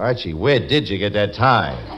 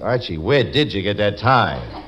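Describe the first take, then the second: First: It is said in an angry, accusing tone. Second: The same.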